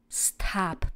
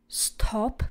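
First: American accent, with an open 'a'-like vowel. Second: British accent, with a rounded 'o' vowel.

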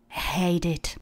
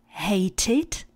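First: The middle consonant sounds almost like d. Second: The middle consonant is a clear t. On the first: "americkou výslovnost, kde to t přechází tak trošku do d" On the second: "místo hated"

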